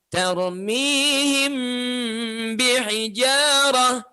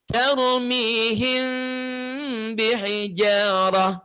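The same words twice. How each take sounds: First: The m is said with the lips pressed shut. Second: The m is said with the lips slightly apart. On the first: It follows the Egyptian reading tradition. "Yang pertama tadi rapat" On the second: It follows the Medina reading tradition. "dibaca dengan cara merenggangkan kedua bibir"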